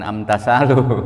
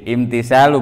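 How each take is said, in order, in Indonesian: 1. Kata ini diawali dengan vokal 'a'. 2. Kata ini diawali dengan vokal 'i'. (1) "bukan bukan amtasalu" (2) "Yang yang benar imtisalu"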